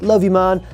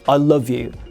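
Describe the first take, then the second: First: It is said in a casual, offhand tone. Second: It is said in an earnest, heartfelt tone.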